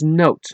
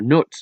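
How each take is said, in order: First: The vowel sounds like the oa in boat. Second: The vowel sounds like the u in foot. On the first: The speaker calls it right. "it should be pronounced as note, like a music note" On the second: The speaker calls it wrong. "or Nut"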